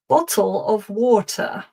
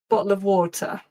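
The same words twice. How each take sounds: First: It is said in a very posh, old-fashioned accent. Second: It is said in a natural, everyday accent. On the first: The speaker calls it wrong. "to say it in the sort of Downton Abbey style" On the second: The speaker calls it right. "it's more natural. I say"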